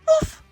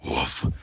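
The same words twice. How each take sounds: First: It is said in a high, scared voice. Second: It is said in a deep, angry voice.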